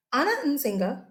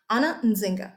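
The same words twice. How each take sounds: First: Anna Nzinga voiced aloud, rising; savoring the name. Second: Whispered Anna Nzinga; savoring the name. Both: Shown as a demonstration. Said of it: "I just love saying that".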